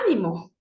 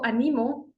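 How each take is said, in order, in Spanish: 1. El acento está en la primera sílaba. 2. El acento está en la segunda sílaba. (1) "si es que lleva la tilde en la A" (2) "yo animo a mis estudiantes"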